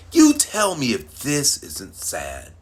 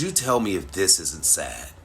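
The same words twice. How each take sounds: First: "You tell me if this isn't sad" said slower, higher and louder, every word weighed; slow emphatic repeat. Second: Said in the usual way. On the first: Shown as a demonstration. Asking Facebook friends to judge, slow and emphatic. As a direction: lean on "sad" and drag it out.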